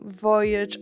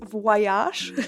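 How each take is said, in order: First: Voyage is pronounced the usual way. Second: Voyage is pronounced the way the song says it. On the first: The speaker calls it right. "our teacher was um, really mad that some people were reading" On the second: The speaker calls it wrong. "they pronounced Voyage as Voyage Voyage"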